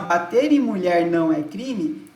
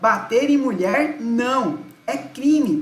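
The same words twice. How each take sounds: First: It is said without a pause after "não". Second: It is said with a pause after "não".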